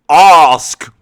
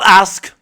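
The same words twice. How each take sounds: First: The vowel is long, southern English style. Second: The vowel is short, northern English style. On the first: "He's just said ask" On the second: "not ask"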